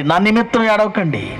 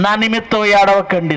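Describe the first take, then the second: First: నిమిత్తం pressed hardest, ఏడవకండి falling away; stress on నిమిత్తం. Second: ఏడవకండి pressed hardest, నిమిత్తం kept light; stress on ఏడవకండి. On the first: Preacher to congregation repeating Jesus, weight on నిమిత్తం. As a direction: lean on the word నిమిత్తం. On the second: Preacher to congregation quoting Jesus, weight on ఏడవకండి. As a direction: lean on the word ఏడవకండి. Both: Shown as a demonstration.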